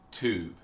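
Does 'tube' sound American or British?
American. It has an American plain 'toob' sound.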